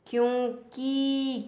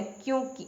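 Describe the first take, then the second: First: क्योंकि slow and high, long final kee; wrong pronunciation. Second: क्योंकि high and short, clipped ki; correct pronunciation. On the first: Teacher showing a misspelling, क्योंकि stretched to long kee. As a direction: drag the ending of क्योंकि to keee. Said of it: "क्योंकि नहीं होता है". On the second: Teacher correcting learners, क्योंकि ended on short ki. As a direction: keep the final i of क्योंकि short. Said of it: "छोटे की मात्रा क पे". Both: Shown as a demonstration.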